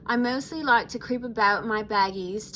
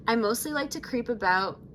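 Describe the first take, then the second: First: Lightly put-on Australian accent; Australian accent attempt. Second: Said in the usual way. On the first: Shown as a demonstration. Vlogger restarts Laguna's profile line in an attempted Australian accent. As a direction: switch into an amateur Australian accent, a bit louder. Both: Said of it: "should I do the accent?".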